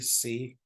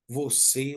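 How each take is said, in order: First: The word is cut to one short syllable. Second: The word is said in full, two syllables.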